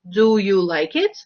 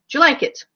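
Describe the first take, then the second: First: Each word is said clearly and separately. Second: The words are run together and reduced. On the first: "in very proper speech" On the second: "In connected, in everyday speech"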